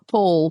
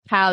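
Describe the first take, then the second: First: The vowel is long, as in 'Paul'. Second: The vowel is short, as in 'pal'. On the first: The speaker calls it wrong. "it's not Paul" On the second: The speaker calls it right.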